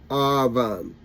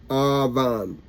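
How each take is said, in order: The two takes are said the same way.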